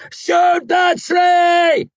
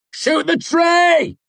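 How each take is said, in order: First: Very slow, drawn-out scream, much higher and louder. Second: Drawn-out yell, much higher and louder; shouting over thunder. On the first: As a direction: scream it with everything left. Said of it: "I screamed". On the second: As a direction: bellow it over the storm. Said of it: "I shouted over the thunder". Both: A narrator's reading.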